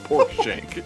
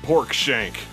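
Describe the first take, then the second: First: It is said grandly, with weighty importance. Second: It is said plainly, without special weight.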